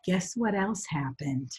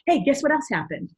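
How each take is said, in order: First: It is said slowly. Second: It is said quickly.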